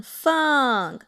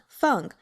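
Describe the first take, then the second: First: Feng stretched from high to falling, louder; drawn-out fourth tone. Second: Feng said briefly with a quick fall; short fourth tone. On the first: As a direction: exaggerate the long fall on Feng. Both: Shown as a demonstration. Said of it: "That's the fourth tone".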